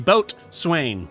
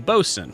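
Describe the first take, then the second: First: The word is said as boat plus swain. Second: The word is clipped to a short bosun. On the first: The speaker calls it wrong. "or the boat swain" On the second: The speaker calls it right. "I'll say bosun"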